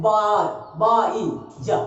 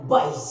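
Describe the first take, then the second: First: बा, ई, जा drawn out with stops; wrong halting demo of बा - ई - जा; broken into syllables. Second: Said in the usual way. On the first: Shown as a demonstration. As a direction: break wise into slow separate sounds. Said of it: "कि रुक रहे हैं, ऐसे बोल रहे हैं". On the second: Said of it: "ऐसे बोल रहे हैं, नहीं ना".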